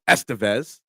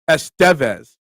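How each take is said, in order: First: The name is pronounced the English way. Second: The name is pronounced the Spanish way. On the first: "other people say, like Emilio Estevez" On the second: "accented in Spanish"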